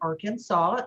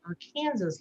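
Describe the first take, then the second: First: The word ends with a "saw" sound. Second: The word ends like the state "Kansas". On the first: "S A W" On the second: "like Texarkansas"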